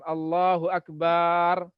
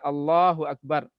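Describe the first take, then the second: First: The vowel in akbar's last syllable is drawn out. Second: The vowel in akbar's last syllable is short. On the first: The speaker calls it wrong. "Yang kadang-kadang keliru barnya dipanjangkan" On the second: The speaker calls it right. "Allahnya yang panjangkan, akbarnya pendek"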